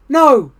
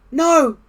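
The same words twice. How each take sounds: First: High, loud little answer; Frog's voice. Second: Very high little squeak; tiny peep. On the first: Frog answers Toad from the audience, high voice. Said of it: "said Frog". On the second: Frog, grown very small, answers Toad, high peep. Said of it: "peeped Frog". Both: A narrator's reading.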